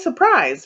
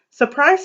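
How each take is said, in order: First: "surprise" with a falling tune, settling down. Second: "Surprise" with a rising tune, higher. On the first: Narrator echoing the reveal, falling. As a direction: let "surprise" drop knowingly. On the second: Narrator springing the next house on kids, rising. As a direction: lift "Surprise" up like a question. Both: A narrator's reading.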